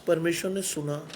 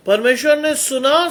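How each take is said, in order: First: Low, soft, understated statement; hushed awe. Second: परमेश्वर ने सुना proclaimed firmly, rising on सुना; emphatic proclamation. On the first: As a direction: say it softly and low, letting it sink in. Climax of testimony, first take. (धीमे, दबे स्वर में) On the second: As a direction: declare सुना in a raised, ringing preacher's tone. Climax of testimony, proclaimed again. (सुना पर ज़ोर देकर, चढ़ते स्वर में घोषणा) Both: Real, not acted.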